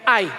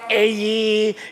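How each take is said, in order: First: It is said as one syllable, like eye. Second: It is said as two vowels, ah then eh. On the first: "eto I. Basta sa atin, I" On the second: "some A E"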